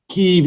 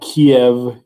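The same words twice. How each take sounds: First: The name has its modern Ukrainian pronunciation. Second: The name has its Russian pronunciation. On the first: "if you are using the kind of modern Ukrainian enunciation" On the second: "if you're using the more Russian Russian um, pronunciation"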